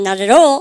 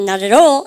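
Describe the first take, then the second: First: American accent, the words linked together smoothly. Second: The same.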